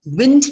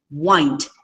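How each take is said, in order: First: "Wind" with a short i, as in windy. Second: "wind" with a long i, like wined. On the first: Teacher showing homographs to class, short-i "Wind". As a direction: say "Wind" to rhyme with pinned. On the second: Teacher showing homographs to class, long-i "wind". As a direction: say "wind" to rhyme with find. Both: Shown as a demonstration. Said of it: "same spellings but sound different".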